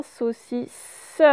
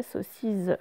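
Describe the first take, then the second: First: SAUCISSE in syllables, final SSE drawn out; teacher isolating the end of SAUCISSE; last syllable stressed. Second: SAUCISSE wrongly said with a final Z sound; mispronounced with Z. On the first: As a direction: separate SAUCISSE and land on the closing S sound. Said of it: "Et à la toute fin". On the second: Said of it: "parce que sinon, ça ferait". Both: Shown as a demonstration.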